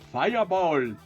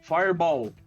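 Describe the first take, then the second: First: It is said in an imitated Indian accent. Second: It is said in a plain, unaccented English way. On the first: "você tem que falar que nem indiano pra o feitiço sair" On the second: "mais clássico"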